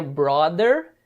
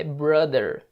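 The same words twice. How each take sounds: First: Brother said the Brazilian way, with a tapped r and an open o: "bró-der"; Brazilian-style brother. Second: Brother with the English r and a short, neutral first vowel: "brâ-dher". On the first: (brother com r tepe e o aberto, jeito brasileiro) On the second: (brother com o r do inglês e a vogal curta e neutra) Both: Shown as a demonstration. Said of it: "Se atente na pronúncia".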